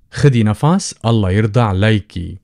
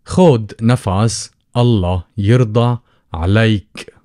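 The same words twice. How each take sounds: First: خدي and عليكي each ending in a long E; feminine form. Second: خد and عليك ending on the consonant, no E; masculine form. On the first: Teacher showing how to address a woman, feminine endings voiced. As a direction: sound the final E on خدي and عليكي. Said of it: "that's if you're talking to feminine". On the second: Teacher showing how to address a man, endings without E. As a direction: drop the final E from خد and عليك. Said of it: "without the E". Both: Shown as a demonstration.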